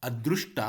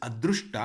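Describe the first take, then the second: Both takes have the same delivery.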